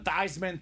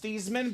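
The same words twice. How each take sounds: First: The name rhymes with Heisman. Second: The name does not rhyme with Heisman. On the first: This pronunciation was chosen to sound like the trophy. "let's change your last name pronunciation to Theismann, Theismann for the Heisman" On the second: This is the name's original pronunciation. "his name was pronounced Theismann"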